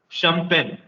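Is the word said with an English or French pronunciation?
English. It is said with an English pronunciation. "In English, it's champagne"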